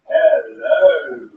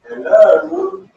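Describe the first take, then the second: First: It sounds like calling out for attention. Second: It sounds irritated and impatient. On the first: The speaker wants the listener to notice them. "Want to capture your attention" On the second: The speaker is annoyed the listener is not listening. "Because annoyed"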